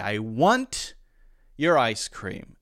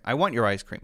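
First: The word 'want' ends with a crisp released T. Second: The word 'want' ends with a brief stopped T. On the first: "And perfectly acceptable if I say, ... And that's fine too" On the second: "It's still there. You hear that stop"

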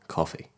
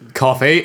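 First: The word is said quietly. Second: The word is said loudly, nearly screamed.

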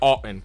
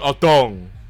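First: The name ends with a plain 'n' sound. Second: The name ends with an 'ng' sound. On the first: The speaker calls it right. "It's Otton" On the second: The speaker calls it wrong. "I was saying Otong"

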